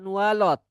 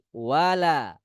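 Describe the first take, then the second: First: The L is pronounced thick and heavy. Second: The L is pronounced thin and light. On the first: The speaker calls it wrong. "bukan walot" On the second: The speaker calls it right. "tapi wala"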